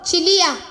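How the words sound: The name is called warmly, with tender affection.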